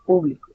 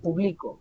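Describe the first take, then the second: First: The stress is on the first syllable. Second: The stress is on the middle syllable. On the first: It names a group of people. "con la tilde en la U" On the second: It is an action in the present. "la mayor fuerza vocal se identifica a mitad"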